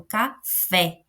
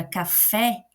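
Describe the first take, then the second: First: "café" split in two, ca... FÉ; stress on second syllable. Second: Said in the usual way. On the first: Shown as a demonstration. Teacher shows students the stronger syllable, "café" with stressed "fé". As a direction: say "café" slowly, pausing before a firm final "fé". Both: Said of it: "eu coloco mais força na segunda sílaba".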